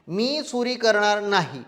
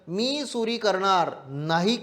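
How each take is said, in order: First: The pause comes after 'नाही'. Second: The pause comes before 'नाही'. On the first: I will not steal; if I do, I should be punished. "विराम" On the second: I will steal; whoever does not should be punished. "जर अगोदर विराम घेऊन टाकला"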